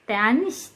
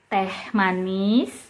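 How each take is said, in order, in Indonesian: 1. Bunyi m di awal manis dihilangkan. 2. Bunyi m di awal manis diucapkan.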